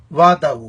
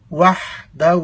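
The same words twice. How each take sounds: First: وحدہ said as wada, the h dropped; wrong pronunciation. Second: وحدہ with a clear h, wahda; correct pronunciation. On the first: Teacher demonstrating students' common mistake, وحدہ without the h. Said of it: "لوگ اکثر پڑھتے ہیں". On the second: Teacher showing students the correct وحدہ, h clearly voiced. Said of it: "ہا کو واضح کرنا ہے". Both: Shown as a demonstration.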